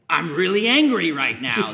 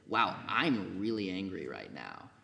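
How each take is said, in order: First: It is said angrily, as an outburst. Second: It is said calmly, as an observation.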